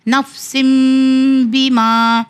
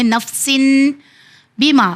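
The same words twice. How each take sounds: First: "نفسن" ending in a hummed m into "بیما"; n read as m. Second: "نفسن" ending in a clear n, pause, then "بیما"; plain n reading. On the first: Teacher showing students the iqlab rule, hummed m. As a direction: turn the n of "نفسن" into m before "بیما". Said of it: "اس کے لیے میم پڑھا گیا". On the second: Teacher showing the word without the rule, clear n. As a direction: say "نفسن" with an n, not m. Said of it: "اگر میم نہ ہو تو سن پڑھیں گے". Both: Shown as a demonstration.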